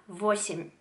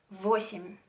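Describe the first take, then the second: The two takes are said the same way.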